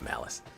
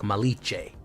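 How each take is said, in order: First: The c is said like s. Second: The c is said like ch. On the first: The speaker calls it right. "I know it's Malice" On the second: The speaker calls it wrong. "more of an Italian C like Malice"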